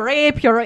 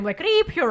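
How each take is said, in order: First: "rape her" with a long ay sound, noticeably louder. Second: "rip her" with a short clear i as in rip, not "rape". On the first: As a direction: say "rape her" with a long ay vowel and more force. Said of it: "trying to say rape her". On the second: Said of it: "I thought you were saying". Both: Shown as a demonstration.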